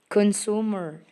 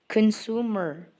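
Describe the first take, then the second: The two takes are said the same way.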